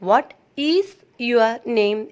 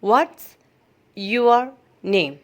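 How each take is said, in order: First: The word 'is' is said in full. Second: The word 'is' is contracted into 'what's'. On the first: The speaker calls it wrong. "ചിലവര് വാട്ട് ഈസ് your name എന്ന് പറയാം" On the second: The speaker calls it right. "കുറച്ചും കൂടി നല്ലതാണ് നമുക്ക് വാട്ട്സ് എന്ന് പറയുന്നത്"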